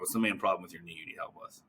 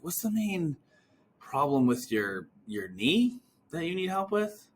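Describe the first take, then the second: First: The question sounds flat and uncurious. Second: The question sounds curious and puzzled. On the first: The asker is just running through a script. The speaker calls it wrong. "Versus, hear this" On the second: The asker genuinely wants to understand the problem. The speaker calls it right. "that all comes out on the other end as curiosity"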